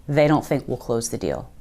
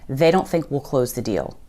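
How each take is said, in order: Both takes have the same delivery.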